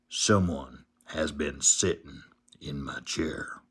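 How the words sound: It is said in a great big voice.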